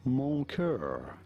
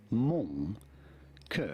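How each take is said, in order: First: "mon cœur" anglicized, with an English r in "cœur"; English pronunciation. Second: "mon cœur" with a nasal "mon" and a throaty French r in "cœur"; French pronunciation. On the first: French teacher offering the English version, anglicized "mon cœur". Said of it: "it'd be fine in English to say it as". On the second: French teacher showing the phrase, native French "mon cœur". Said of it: "In France, we would say it as". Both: Shown as a demonstration.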